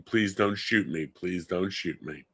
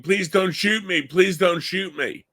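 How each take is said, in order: First: Softer, lower, slowing on the repeat; hushed retold plea. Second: High, pleading voice, slowing on the repeat; imitating a crying plea. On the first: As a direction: pass on the son's scream quietly. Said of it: "in the living room screaming". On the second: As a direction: echo the son's frightened begging, pitched up. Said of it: "he hears his son's crying".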